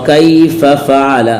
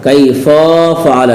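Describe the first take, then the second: No difference in how they are said.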